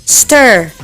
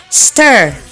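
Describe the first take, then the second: Both takes have the same delivery.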